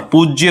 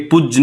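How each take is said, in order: First: पूज्य with a clear final ya, "pooj-ye"; correct ya ending. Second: पूज्य cut short as "pujj", no ya; wrong cut-off ending. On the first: Teacher giving students the right form, पूज्य as "pooj-ye". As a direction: say पूज्य with the y sounded after j. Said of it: "होता है". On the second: Teacher showing students the mistake, पूज्य clipped to "pujj". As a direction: say पूज्य ending on the j, without the y glide. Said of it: "नहीं होता". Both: Shown as a demonstration.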